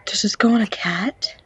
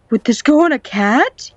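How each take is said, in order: First: Said in the usual way. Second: Higher, louder question with rising end; excited repeat. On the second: Real, not acted. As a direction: ask it louder, lifting up on "cat".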